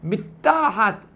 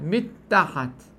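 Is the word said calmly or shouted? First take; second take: shouted; calm. First: The word is shouted loudly with raised pitch. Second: The word is said at normal, calm volume. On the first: The speaker calls it wrong. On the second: The speaker calls it right.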